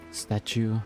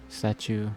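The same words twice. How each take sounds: The two takes are said the same way.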